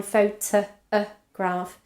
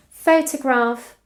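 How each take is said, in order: First: "photograph" broken up to expose the middle "uh"; isolated schwa. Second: Slow "Photograph", higher on the stressed first syllable. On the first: Teacher pointing out the schwa, "photograph" drawn out on its middle "uh". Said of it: "we have a schwa in". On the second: Teacher giving an example word, slow "Photograph" stressed at the front. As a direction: say "Photograph" slowly, weight on Pho-. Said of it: "notice what happens in these words". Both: Shown as a demonstration.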